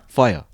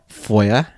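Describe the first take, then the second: First: It is said in a plain, non-Brummie accent. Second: It is said in a Birmingham (Brum) accent.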